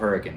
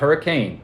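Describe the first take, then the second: First: The name is said the local way. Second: The name is said the outsider way. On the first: The speaker calls it right. "good old Hurricane" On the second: The speaker calls it wrong. "not Hurricane. Don't dare say that"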